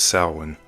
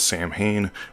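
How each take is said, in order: First: The word is said in the Gaelic way. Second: The word is said in a non-Gaelic way. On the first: This is the original Gaelic form. "its Gaelic pronunciation is Samhain" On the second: This is how some people say it. "Some pronounce this as Samhain"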